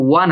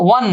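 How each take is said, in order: First: "ওয়ান" opening on a clear w glide; correct wa onset. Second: "ওয়ান" as the form to avoid; rejected pronunciation. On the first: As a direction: show "ওয়ান" starting with wa. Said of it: "এটা হচ্ছে ওয়ান আসতেছে". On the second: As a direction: cite "ওয়ান" as a mistaken reading. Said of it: "এটা কিন্তু ওয়ান না". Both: Shown as a demonstration.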